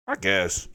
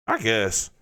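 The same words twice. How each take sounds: The two takes are said the same way.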